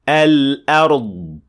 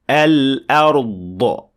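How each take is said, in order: First: The final consonant is held without an echo burst. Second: The final consonant ends with a released echo burst. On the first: The speaker calls it right. "it should sound like this" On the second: The speaker calls it wrong. "The mistake sounds like this"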